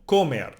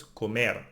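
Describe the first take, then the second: First: "comer" wrongly stressed on CO; wrong first-syllable stress. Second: "comer" stressed on MER; correct final stress. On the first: Teacher showing learners the mistake, "comer" stressed on CO. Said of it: "no, no". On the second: Teacher correcting the mistake, "comer" stressed on MER. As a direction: put the weight on the last syllable of "comer". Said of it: "emphasize now the last one". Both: Shown as a demonstration.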